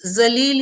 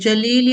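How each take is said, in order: First: The word begins with a z sound. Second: The word begins with a j sound. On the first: To insult or disrespect someone. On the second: Beautiful.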